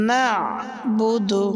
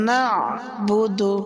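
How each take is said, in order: The two takes are said the same way.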